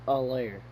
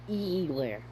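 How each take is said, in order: First: The name begins with a weak 'uh' vowel. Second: The name begins with a long 'ee' vowel. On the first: The speaker calls it right. "it's a layer" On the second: The speaker calls it wrong. "not E-Lair"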